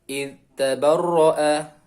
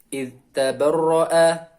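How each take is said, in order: Both takes have the same delivery.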